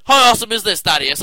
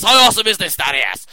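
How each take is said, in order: First: Loud hyped question; excited shout. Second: Sung, loud sing-song repeat. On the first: Real, not acted. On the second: Pretend. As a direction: sing the line with big enthusiasm.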